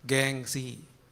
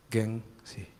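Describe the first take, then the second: First: Gengsi repeated slowly, weighed; mock echo of gengsi. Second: Gengsi dropped low and soft; soft refrain gengsi; punchline word. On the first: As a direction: let Gengsi land as the punchline. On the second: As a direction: say Gengsi quietly as the moral. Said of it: "gengsi refrain". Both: Shown as a demonstration.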